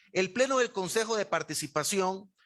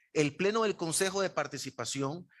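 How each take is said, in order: No difference in how they are said.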